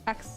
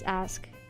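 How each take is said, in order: First: The consonants are swapped, ending in 'ks'. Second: The consonants are in order, ending in 'sk'. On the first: This is how people in Philly say it. "They also say axe too. They don't really say ask" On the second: This is the standard way to say it. "trying to correct my friend on saying ask instead of axe"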